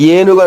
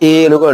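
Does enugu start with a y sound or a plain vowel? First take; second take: y sound; plain vowel. First: The word starts with a y glide. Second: The word starts with a plain vowel. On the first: The speaker calls it wrong. "అనం కదా" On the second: The speaker calls it right. "అంటాం"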